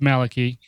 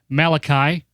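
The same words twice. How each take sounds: First: The name is said with its standard pronunciation. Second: The name is said with an altered pronunciation. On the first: This is the real name. The speaker calls it right. "It's Malachy. ... Don't mispronounce it" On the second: It is a joke. The speaker calls it wrong. "Just kidding"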